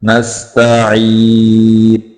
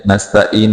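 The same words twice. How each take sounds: First: नस्तईन with throaty ain and very long "ee"; drawn-out tajweed नस्तईन; clear ain. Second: नस्तईन quickly with a plain vowel for the ain; flattened everyday नस्तईन; unclear ain. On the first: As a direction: recite नस्तईन slowly, articulating the ain. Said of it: "ऐन को वाज़े करेंगे". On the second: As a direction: say नस्तईन casually, no throat sound. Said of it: "नहीं पढ़ना". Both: Shown as a demonstration.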